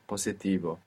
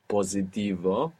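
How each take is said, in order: First: The middle consonant is a hissing S sound. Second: The middle consonant is a buzzing Z sound. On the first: The speaker calls it right. "with a S" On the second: The speaker calls it wrong. "most English speakers will probably find themselves pronouncing a Z there"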